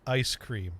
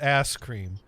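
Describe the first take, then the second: First: The first vowel is a gliding 'eye' sound. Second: The first vowel is a flat, single 'ah' sound. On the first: This is how people in the north say it. "up here they pronounce it ice cream" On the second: This is how people in the south say it. "down here they pronounce it ass cream"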